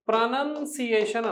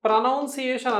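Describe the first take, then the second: First: ప్రొనౌన్సియేషన్ drawn out as pruh-nun-see-AY-shun; slow teacher's model of ప్రొనౌన్సియేషన్ with "nun"; correct pronunciation. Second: ప్రొనౌన్సియేషన్ as pruh-NOUN-see-AY-shun; wrong pronunciation. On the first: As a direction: say ప్రొనౌన్సియేషన్ slowly with a short "nun" second syllable. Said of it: "ప్రొనౌన్సియేషన్ అనాలి". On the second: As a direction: say ప్రొనౌన్సియేషన్ with "noun" in the second syllable. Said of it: "ప్రొనౌన్సియేషన్ అనం". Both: Shown as a demonstration.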